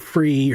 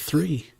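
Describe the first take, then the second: First: The word begins with an f sound. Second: The word begins with a th sound. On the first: The speaker calls it wrong. "instead of saying free" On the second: The speaker calls it right. "put your tongue up here"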